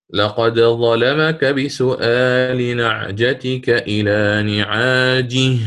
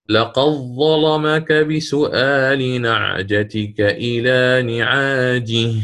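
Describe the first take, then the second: First: Slow recitation, the dal of لقد bounced before ظلمك; لقد with a clear, echoing dal, ظلمك said apart; Qalun izhar with qalqala. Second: Slow recitation, لقد merges into a doubled ظلمك; no dal heard, لقد runs straight into a stressed, doubled ظاء; Warsh idgham. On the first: Teacher reciting Qalun's reading, dal of لقد bounced with qalqala. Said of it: "فأقلقل، فنقرأ". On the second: Teacher reciting Warsh's reading, dal merged into doubled ظلمك. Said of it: "فنقرأ هنا للإمام ورش". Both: Shown as a demonstration.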